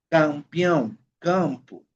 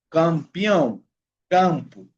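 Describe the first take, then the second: No difference in how they are said.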